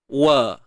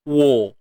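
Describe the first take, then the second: First: The vowel is open and not rounded. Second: The vowel is rounded, trapped in the mouth. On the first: The speaker calls it right. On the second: The speaker calls it wrong.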